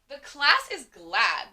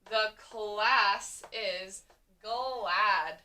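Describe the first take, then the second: First: It is said forcefully, with lots of energy. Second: It is said calmly, as a plain statement. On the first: The speaker feels very strongly about it. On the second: It is a plain statement of fact.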